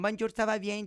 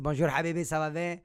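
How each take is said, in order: First: Imitated immigrant mother's French accent, higher pitched; mother's foreign accent. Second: Imitated father's Arabic-accented French. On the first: Mother greeting someone, heavy foreign accent. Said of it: "ma mère, elle a vraiment un accent. Elle, c'est comme". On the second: Father greeting his son, Arabic accent. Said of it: "mon père, c'est vraiment un accent, ça va rester un accent, euh, arabe".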